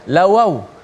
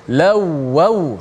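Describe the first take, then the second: First: The middle w sound is single and short. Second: The middle w sound is doubled and held. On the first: The speaker calls it wrong. "Bukan lawaw" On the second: The speaker calls it right. "sabdu atas waw"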